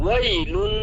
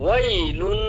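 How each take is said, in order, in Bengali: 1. শব্দটি ছোট স্বরে চলে যায়। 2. শব্দটি ছোট স্বরে চলে যায়।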